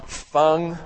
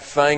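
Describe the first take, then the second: First: The vowel is open, as in 'father'. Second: The vowel is flat, as in 'cat'. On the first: The speaker calls it right. "I said it right" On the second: The speaker calls it wrong. "No Fang around here"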